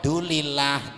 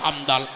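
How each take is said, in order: First: Only the final part of the phrase is said. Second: Only the middle part of the phrase is said. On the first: This is the sloppy Javanese way of reciting. "Sing Jawa... Iku jenenge wong Jawa gak entos" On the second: This is the sloppy Madurese way of reciting. "Sing Madura mekele Madura"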